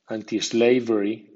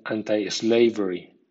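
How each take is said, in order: First: Anti-slavery with anti ending in an ee sound; anti as AN-tee. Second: Anti-slavery with anti ending in an eye sound; anti as AN-tai. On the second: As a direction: say anti-slavery as an-tie-SLA-very. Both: Shown as a demonstration. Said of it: "suena anti o anti".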